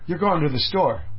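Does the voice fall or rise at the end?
falls. The voice falls at the end. It is a statement.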